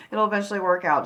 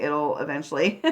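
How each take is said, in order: First: Quick laugh through the words. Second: Said in the usual way. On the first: Real, not acted. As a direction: laugh it off lightly. Laughs restarting the phrase.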